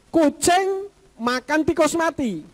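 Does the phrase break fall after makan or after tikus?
after makan. The phrase breaks after the word makan. A cat eats a mouse that is already dead. "Ada tikus mati dimakan kucing"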